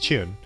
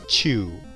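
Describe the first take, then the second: First: The word ends with an n sound. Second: The word ends without an n sound. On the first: This is the reading used when playing Mahjong. "you add that n sound at the end" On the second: This is the usual reading in Japanese words. "without the n sound at the end"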